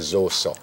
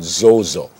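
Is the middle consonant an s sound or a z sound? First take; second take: s sound; z sound. First: The middle consonant is a hissing s sound. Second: The middle consonant is a buzzing z sound. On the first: The speaker calls it right. "when it's actually Zoso" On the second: The speaker calls it wrong. "why we keep saying Zozo"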